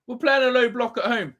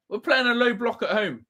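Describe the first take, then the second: No difference in how they are said.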